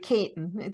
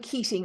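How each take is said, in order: First: The name is said the local way, Caton. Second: The name is said as written, Keating. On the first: This is how locals in Tipperary say it. "or we would say here in Tipperary" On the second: This is the name as it is spelled. "the name is Keating"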